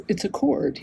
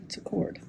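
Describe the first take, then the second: First: Said in the usual way. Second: Drops to a whisper on cord; trailing whisper. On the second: Real, not acted. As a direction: let it fade to a breathy whisper while working.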